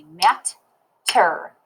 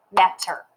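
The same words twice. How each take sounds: First: "matter" very slowly as mat, pause, ter; "matter" in two separated syllables; syllable divided. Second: Said in the usual way. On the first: Shown as a demonstration. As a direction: split "matter" between the two t's. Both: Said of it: "when I syllable divide it".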